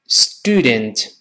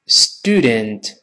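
The two takes are said the same way.

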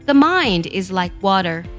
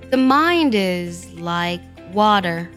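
First: The sentence is read at a normal pace. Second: The sentence is read slowly and deliberately.

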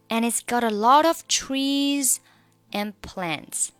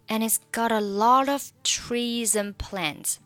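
First: 'Trees' and 'and' are said apart, without linking. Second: 'And' is reduced to n and joined to 'trees'. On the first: "至于trees 和and 你可以选择不用连读" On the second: "这里的and 我们可以把它弱读成n 的发音，然后trees 和后面的n 就可以连读成treason"

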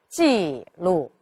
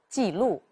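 First: The first syllable falls all the way down. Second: The first syllable falls only halfway down. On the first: The speaker calls it wrong. "我们读的时候就应该不能读成记录" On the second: The speaker calls it right. "我们要把它读成记录"

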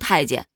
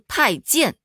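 First: The second syllable is in the neutral tone. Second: The second syllable has a full tone. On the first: The speaker calls it wrong. "这个词儿不读太监" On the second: The speaker calls it right. "它应该读太监，……它就不能读成轻声"

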